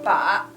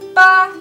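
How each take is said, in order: First: It is said with the third tone. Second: It is said with the first tone. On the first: It means a target. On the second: It means the number eight.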